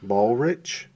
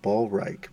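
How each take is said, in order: First: "Ballrich" ending like the English word rich, questioning; pronounced like "rich". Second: "Ballreich" ending like "rike", rhyming with like; German-style ending. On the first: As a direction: say "Ballrich" with short i and ch as in chip. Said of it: "I've heard it pronounced a thousand ways". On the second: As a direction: say "Ballreich" with long eye vowel and hard k. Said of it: "Or some people say Ballreich". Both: Shown as a demonstration.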